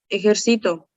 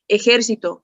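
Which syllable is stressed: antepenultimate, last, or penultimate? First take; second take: penultimate; antepenultimate. First: The stress is on the second-to-last syllable. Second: The stress is on the third-to-last syllable. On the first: "grave. ¿Por qué es una palabra grave? Porque su sílaba tónica está en la penúltima" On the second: "es una palabra esdrújula porque su sílaba tónica está en la antepenúltima"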